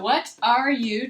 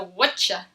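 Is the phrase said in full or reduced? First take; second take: full; reduced. First: Each word is said separately and in full. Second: The words blur together into one short word.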